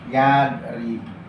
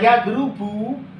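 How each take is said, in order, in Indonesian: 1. Vokal setelah 'r' adalah 'i'. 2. Vokal setelah 'r' adalah 'u'. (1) "Di kasroh" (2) "tidak doroba yadrubu"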